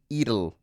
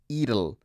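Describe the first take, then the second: The two takes are said the same way.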